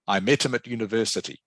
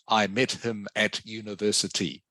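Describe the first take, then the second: First: The word 'at' is reduced and weak. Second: The word 'at' is full and strong. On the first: The speaker calls it right. "use the weak pronunciation of things like prepositions" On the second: The speaker calls it wrong.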